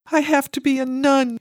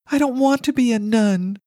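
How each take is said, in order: First: Put-on child's cry. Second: Put-on high, loud pleading child; child's cry. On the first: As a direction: cry it out like a scared eight-year-old. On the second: Girl pleading with mother she doesn't want to be a nun, high and loud. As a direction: beg like a frightened little girl. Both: A narrator's reading. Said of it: "she cried".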